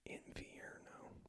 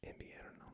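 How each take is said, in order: First: The v is said like an English v. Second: The v is said more like a b. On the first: The speaker calls it wrong. "in English you want to be like" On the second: The speaker calls it right. "but in Spanish"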